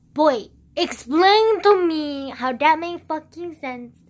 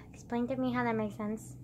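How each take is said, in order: First: Loud, slow, drawn-out demand; exasperated shout. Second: Said in the usual way. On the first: Real, not acted. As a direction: shout it at him in disbelief.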